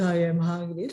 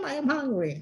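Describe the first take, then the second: First: It is said in a weak, pleading way. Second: It is said in an insistent, protesting way. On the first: The speaker is begging for food. "melodinya begitu, I am hungry. Really hungry. Beggar" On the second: The speaker refuses to go to sleep. "But a, a child said, no, I am hungry"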